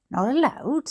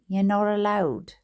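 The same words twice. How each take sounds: First: High-pitched indignant question. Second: Said in the usual way. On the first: A narrator's reading. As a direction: echo it back in a high, swooping voice. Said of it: "said my mother in a high tone". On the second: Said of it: "said the man again".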